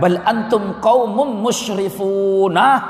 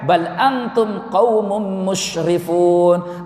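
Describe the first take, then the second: First: The consonant in the last word is 's'. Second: The consonant in the last word is 'sh'. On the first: They are a people who transgress limits. The speaker calls it right. "kalian adalah kaum yang rendah, hina, ya, karena melampaui batas" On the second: They are a noble people. The speaker calls it wrong. "dibaca berbeda, ... kalian kaum yang mulia"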